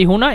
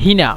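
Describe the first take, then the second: First: The first vowel is an 'u' sound. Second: The first vowel is an 'i' sound. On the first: "হুনা মানে এখানে" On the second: "হুনাকে আবার কিন্তু হেনা বলে"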